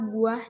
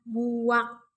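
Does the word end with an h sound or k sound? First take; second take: h sound; k sound. First: The word ends with a soft h sound. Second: The word ends with a hard k sound. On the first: The speaker calls it right. "mengucapkan kata buah dengan benar" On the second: The speaker calls it wrong. "bukan buak"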